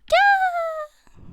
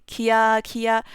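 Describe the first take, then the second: First: "Kia" as one high, loud squeal, kya; screamed kia. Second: "kia" split into two syllables, ki-a. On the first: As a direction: shriek "Kia" in a single gliding syllable. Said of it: "like, when somebody's screaming". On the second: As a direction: say "kia" with a full separate I vowel. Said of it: "you don't wanna say". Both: Shown as a demonstration.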